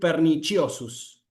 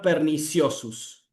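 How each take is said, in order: First: It uses the ecclesiastical pronunciation of the c. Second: It uses the vulgar pronunciation of the c. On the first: The speaker calls it right. "la pronunciación italiana o eclesiástica" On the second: The speaker calls it wrong. "la pronunciación vulgar"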